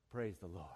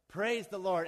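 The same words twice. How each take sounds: First: Low, soft sigh of gratitude; hushed, acted prayer of thanks; reverent thanks. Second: Called-out command. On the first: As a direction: murmur it up to heaven in relief. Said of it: "He looks to the heavens and says". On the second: Acted. Rider gives the horse go command.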